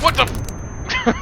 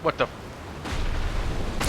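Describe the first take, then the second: First: High-pitched yelling; high shriek. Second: Slow, breathless whisper of disbelief; slow whispered what the; stunned whisper. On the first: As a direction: shriek it out in panic. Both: Real, not acted. Shocked at falling into space.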